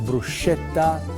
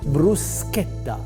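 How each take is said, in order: First: The middle consonant is said as 'sh'. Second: The middle consonant is said as 'sk'. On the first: The speaker calls it wrong. "they just don't know how to say it" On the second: The speaker calls it right. "you pronounce like S and a K"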